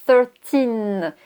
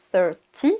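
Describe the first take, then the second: First: Put-on thirteen with a long, clear TEEN; long -teen ending. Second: Thirty ending in TY, no N; short -ty ending. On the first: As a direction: hold the final N of thirteen. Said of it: "ça se finit par des tines". (thirteen, finale TEEN bien allongée) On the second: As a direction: finish thirty on the vowel of TY. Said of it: "ça se finit par des T". (thirty avec une finale TY, sans N) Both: Shown as a demonstration.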